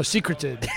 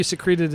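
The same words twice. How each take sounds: First: "secreted" stressed on the first syllable, SEE-cruh-ted; corrected pronunciation. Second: "secreted" stressed on the second syllable, se-CREE-ted; alternative pronunciation. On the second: Allows the other pronunciation. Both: Shown as a demonstration.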